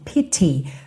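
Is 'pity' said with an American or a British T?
British. The T is a crisp British stop. "[name] faz um T bem britânico"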